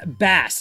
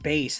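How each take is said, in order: First: The vowel sounds like the one in 'cat'. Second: The vowel sounds like the one in 'face'. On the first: The speaker calls it right. "it's bass" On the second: The speaker calls it wrong. "not base"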